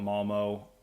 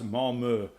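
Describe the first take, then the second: First: The name is said with a plain American vowel. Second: The name is said with a Swedish umlaut vowel. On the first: This is how Americans say the name. "it's America. We're gonna call it Malmo" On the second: This is how locals say the name. "in Swedish is pronounced because it has an umlaut"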